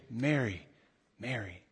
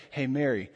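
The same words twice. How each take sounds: First: Softer and softer, fading to a hush; heartfelt repeated name. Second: Said in the usual way. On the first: Shown as a demonstration. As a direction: pour your heart into the name. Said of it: "really be evocative about something". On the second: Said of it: "I wouldn't say".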